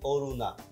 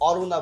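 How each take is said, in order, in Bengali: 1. প্রথম স্বরধ্বনিটি একটি বদ্ধ 'o' ধ্বনি। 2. প্রথম স্বরধ্বনিটি একটি খোলা 'aw' ধ্বনি। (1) "আমরা কি বলি, অরুণা। ... এখানে ও হয়ে যাচ্ছে" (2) "আমরা কেউ অরুণা বলি না"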